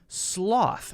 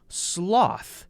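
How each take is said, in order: First: The S runs straight into the L. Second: The same.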